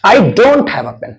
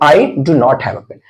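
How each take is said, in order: First: Do not is contracted into one syllable. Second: Do not is said as two full words.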